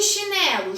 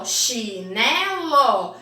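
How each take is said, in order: First: Said in the usual way. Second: "Chinelo" very slowly as chi... né... lo; three separate beats on "Chinelo": chi, né, lo; split into syllables. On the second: Shown as a demonstration. Teacher ordering syllables for pupils, "Chinelo" split as chi... né... lo. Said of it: "depois o né".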